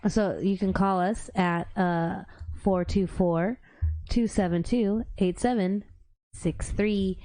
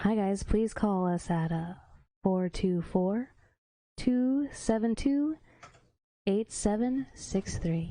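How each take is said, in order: First: It is said in her normal voice. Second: It is said in a put-on sultry voice.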